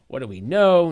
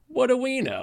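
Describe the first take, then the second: First: It sounds confident and matter-of-fact. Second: It sounds doubtful and helpless. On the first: The speaker is sure of the facts. "very factually, I'm very confident in these facts or those facts" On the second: The speaker has no idea what is known. "I have no idea what we know"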